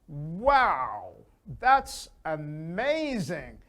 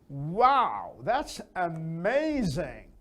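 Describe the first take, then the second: Both takes have the same delivery.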